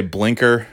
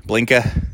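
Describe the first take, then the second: First: Said in the usual way. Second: "blinka" with the final r dropped; New England pronunciation. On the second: Shown as a demonstration. Showing how New Englanders say blinker, "blinka" without the r. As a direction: end "blinka" on an open "ah". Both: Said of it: "New Englanders say blinker".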